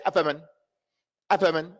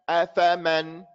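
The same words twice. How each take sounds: First: "afaman" with short, unclear vowels; wrong vowel length. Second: "afaman" with every a full and equal; correct vowel length. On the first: Teacher shows what you can't say, mispronounced. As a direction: hurry through "afaman", reducing the middle a. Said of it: "Can't say". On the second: Teacher shows it has to be clear, correctly pronounced. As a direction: hold each a of "afaman" clearly open. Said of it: "Has to be clear". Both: Shown as a demonstration.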